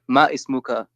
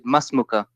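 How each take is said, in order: First: The two words are said separately, with full vowels. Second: The two words are merged into one shorter word. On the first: The speaker calls it wrong. "say it like not ma ismuka" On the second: The speaker calls it right. "but you say masmuka"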